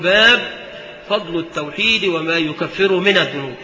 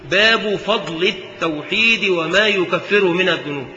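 First: The word baab ends with no vowel. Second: The word baab ends with a short -u. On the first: It only counts the chapter and has no grammatical case. "على سبيل تعداد الأبواب تسكن" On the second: It is the predicate of an omitted subject, joined to what follows. "وتركه"

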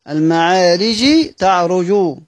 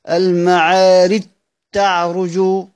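First: The jeem sound is pronounced before the taa. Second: The jeem is dropped and the taa is doubled.

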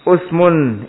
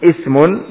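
First: The first vowel is a 'u' sound. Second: The first vowel is an 'i' sound. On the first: "dengan dhammah hamzah dan kasrahnya usmun dan ismun" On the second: "dengan dhammah hamzah dan kasrahnya usmun dan ismun"

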